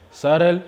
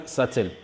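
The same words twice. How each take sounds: First: "Sarel" with T tapped like R; tapped pronunciation. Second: "satel" with a true T; clear-T pronunciation. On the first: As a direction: say "Sarel" with a quick R in the middle. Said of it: "pour certains anglophones". (« Sarel » avec le t comme un r) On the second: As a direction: say "satel" as "sa-tel", T fully sounded. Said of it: "pour certains anglophones, ils prononcent". (« satel » avec un t bien net) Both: Shown as a demonstration.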